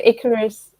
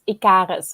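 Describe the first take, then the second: First: Icarus as IK-er-us, stress on the first syllable; English pronunciation. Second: Icarus as ee-KAH-rus, stress on the middle; Dutch pronunciation. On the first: Host trying the other form, Icarus said IK-er-us. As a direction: say Icarus the English way, with a reduced middle vowel. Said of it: "wait, I've forgotten already". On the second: Host guessing the name's Dutch form, Icarus stressed ee-KAH-rus. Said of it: "I think it's Dutch, it's". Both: Shown as a demonstration.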